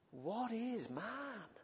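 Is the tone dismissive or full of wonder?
wonder. The tone is full of awe and wonder. Humans are a marvel to be amazed at. The speaker calls it right. "It's more sheer wonderment"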